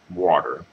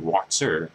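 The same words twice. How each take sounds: First: It is said with a soft American t. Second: It is said with a crisp British t. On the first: "here, I'm like water" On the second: "my supervisor, who's from Britain, say water"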